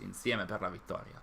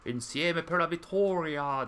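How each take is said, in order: First: It is said with a natural native Italian accent. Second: It is said with a heavy, exaggerated Italian accent. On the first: The speaker calls it right. "This is the actual pronunciation, not not the super uh, heavy one" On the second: The speaker calls it wrong. "That's not really Italian pronunciation"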